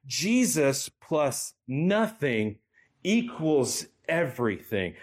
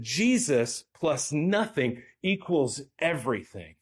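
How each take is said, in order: First: Very slow, each word weighed, "Jesus" stressed; said again slowly. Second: Slightly slowed quotation, "Jesus" leaned on; preacher quoting a theologian, a bit slower; quoted line. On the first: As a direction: drive it home by slowing right down. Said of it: "I'm gonna say that again". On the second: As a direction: set the quote apart deliberately. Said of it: "don't miss this". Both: Shown as a demonstration.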